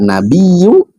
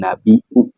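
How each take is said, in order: First: A doubled y sound, no glottal stop. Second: A glottal stop comes before the last vowel. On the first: "ada yang membaca nabiyu" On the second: "mereka membacanya dengan hamzah menjadi nabiu"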